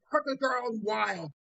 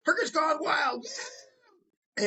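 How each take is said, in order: First: High slow title. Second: High shouted cheer. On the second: Prostitute cheering the show title on cue, shouting high. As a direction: yell the title like a fist-pumping chant. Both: Retold or imitated. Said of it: "What do you say?".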